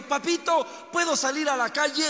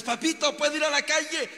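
First: Put-on higher and louder, a restless kid pleading; begging little boy. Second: Put-on higher-pitched child begging to go out; pleading little boy again. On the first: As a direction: beg your papa to let you out and play. Restless boy begs his father. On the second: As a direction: nag your father like a restless kid. Boy asks father again.

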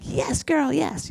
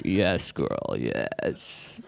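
First: High-pitched sassy cheer; high girly "Yes, girl". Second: Deep, quiet creepy voice, last word breathed; creepy low "Yes, girl". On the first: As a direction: squeal it high like a girlfriend hyping you up. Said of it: "I would be like". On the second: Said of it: "it starts to sound really creepy". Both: Retold or imitated.

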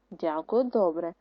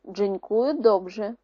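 First: Said in the usual way. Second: «Дзенькую добре» slow, with a Polish ring; Polish phrase. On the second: Shown as a demonstration. Teacher contrasting Polish «Дзенькую добре», slow. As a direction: drawl «Дзенькую добре» slowly. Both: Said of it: "Отже".

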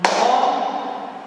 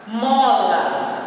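First: "Mola" split into mo and la; syllable by syllable. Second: Said in the usual way. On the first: Shown as a demonstration. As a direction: say "Mola" as two detached beats. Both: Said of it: "Vamos contar".

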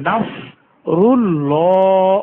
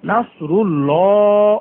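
First: নাসরুল্লাহ with short clipped rull; ru-llah not rulla. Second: নাসরুল্লাহ with a thin light lam, the wrong way; wrong thin reading. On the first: Teacher correcting the ru in নাসরুল্লাহ. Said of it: "রুল্লা না বলে রুল্ল বলতে হবে।". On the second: Teacher showing the wrong thin reading. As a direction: mispronounce নাসরুল্লাহ on purpose, thin. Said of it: "নাসরুল্লাহ বলা যাবে না।". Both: Shown as a demonstration.

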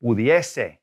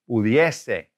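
First: Slow, clear teacher model of "Pudiese"; "Pudiese" modeled for the class; model pronunciation. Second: "Pudiese" said again, clearly and firmly; second clear model of "Pudiese"; model pronunciation repeated. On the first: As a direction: say "Pudiese" crisply for students to copy. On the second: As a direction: repeat "Pudiese" for the class to copy. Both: Shown as a demonstration. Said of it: "See if you can figure out".

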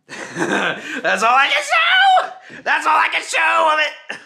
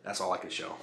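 First: High, loud and laughing; laughing shout. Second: Low, quiet remark. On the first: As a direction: burst out laughing as you yell. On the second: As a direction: say it softly to yourself. Quiet first take. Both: Real, not acted.

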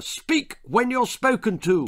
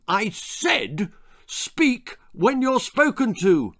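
First: Father's raised, high roar; roared order. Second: High, slow, insistent roar; emphatic roared repeat. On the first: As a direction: roar it as a rebuke. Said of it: "roared his father". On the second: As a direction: hammer it out slowly as an angry father. Father repeats his roared order. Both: A narrator's reading.

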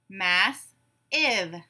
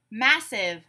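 First: "Mass-ive" slowly split in two; syllable by syllable. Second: Said in the usual way. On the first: Shown as a demonstration. Class breaks the word apart together, syllable by syllable. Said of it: "break it apart into syllables". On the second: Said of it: "I will give you a word".

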